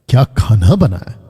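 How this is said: It sounds admiring and full of praise. The food is being praised. "ये हो गया तारीफ"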